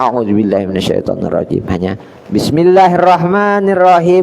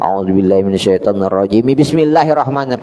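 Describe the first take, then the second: First: There is a pause before the second phrase. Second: The two phrases run together without a pause. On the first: The speaker calls it right. "harus ada jeda" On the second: The speaker calls it wrong. "kada boleh ... jangan jadi sambung"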